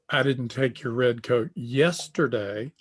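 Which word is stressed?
yesterday. The stress falls on the word yesterday. It was taken on another day. "I took your red coat, but it was last week"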